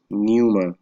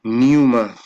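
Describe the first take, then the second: First: Pneuma said again at normal volume, silent p, NOO-muh; repeating a word. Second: Pneuma said loud and firm, silent p, NOO-muh; sounding out a word. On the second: Reading a Bible word to his viewers, sounding it out loudly. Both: Shown as a demonstration. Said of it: "Should be pneuma".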